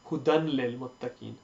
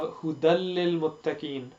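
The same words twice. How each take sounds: First: An n sound is heard before the l. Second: No n sound is heard before the l. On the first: The speaker calls it wrong. "people try to pronounce the n sound" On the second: The speaker calls it right. "we don't pronounce the noon sound"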